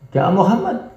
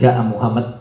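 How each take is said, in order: First: The voice is raised high. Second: The voice stays flat. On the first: It asks whether Muhammad came. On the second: It states that Muhammad came.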